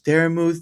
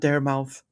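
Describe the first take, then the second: First: The surname has an 'oo'-like vowel. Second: The surname has an 'ow'-like vowel. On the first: The speaker calls it right. "So it's Dare Muth" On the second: The speaker calls it wrong. "not Dare Mouth"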